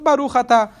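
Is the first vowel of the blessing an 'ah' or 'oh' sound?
ah. The vowels are 'ah', as in modern Hebrew. "porque é muito parecido com o hebraico"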